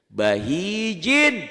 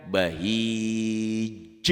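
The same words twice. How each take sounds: First: Bahijin read through with its final -in sounded, loud and drawn out; full ending. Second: Bahij with a long i and a bounced final j; qalqalah stop. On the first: Teacher shows the word before stopping on it, full ending. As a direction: say "Bahijin" with the whole ending voiced. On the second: Teacher shows how it sounds when stopped, bouncing qalqalah. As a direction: stop on "bahij", echoing the j with a tiny puff of vowel. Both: Shown as a demonstration. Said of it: "jika dihentikan".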